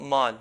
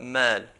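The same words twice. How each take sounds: First: The vowel is pronounced heavy and full-mouthed. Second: The vowel is pronounced light and thin. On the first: The speaker calls it wrong. "not mal" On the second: The speaker calls it right. "but mal"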